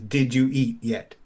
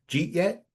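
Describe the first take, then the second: First: Each word is pronounced separately and fully. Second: The words are slurred together into one.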